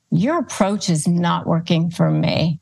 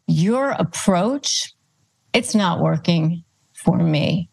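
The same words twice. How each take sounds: First: Said in the usual way. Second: Your approach said slowly with a rise, then a pause before it's not working; slow pointed emphasis. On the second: Shown as a demonstration. Coach to a rude person, stressing Your approach slowly. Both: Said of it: "Again, you're pushing it back on them".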